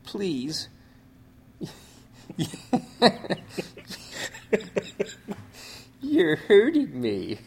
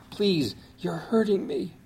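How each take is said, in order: First: Strained, high and slow; weak voice. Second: Lightly voiced weak plea, higher. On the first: Retold or imitated. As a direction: plead faintly, in pain. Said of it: "in a weak voice". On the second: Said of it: "No, it was more like".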